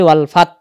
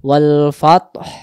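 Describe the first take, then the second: First: The word ends without an h sound. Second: The word ends with an audible breathy h. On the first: The speaker calls it wrong. "হায়ের উচ্চারণ আসে না" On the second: The speaker calls it right. "উচ্চারণ না ভেসে আসবে"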